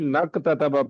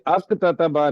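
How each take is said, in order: First: The word starts with a linked 'n' sound. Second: The word starts with an 'a' vowel. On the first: The speaker calls it right. "मिला के नक ततबा पढ़ेंगे" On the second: The speaker calls it wrong. "ये अक ततबा नहीं पढ़ेंगे"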